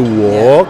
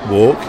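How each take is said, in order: First: The vowel is drawn out long. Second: The vowel is kept short and clipped. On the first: "you say walk" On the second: "I say walk"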